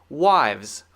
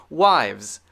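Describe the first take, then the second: No difference in how they are said.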